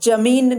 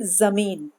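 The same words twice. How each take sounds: First: The first consonant is a j sound. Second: The first consonant is a z sound. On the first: The speaker calls it wrong. "जमीन नहीं बोलेंगे" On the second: The speaker calls it right. "इसको हम बोलेंगे"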